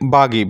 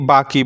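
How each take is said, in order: First: The middle consonant is a voiced g sound. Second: The middle consonant is a voiceless k sound. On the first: "অনেকে বাগি বলে" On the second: "অনেকে বাকি বলে"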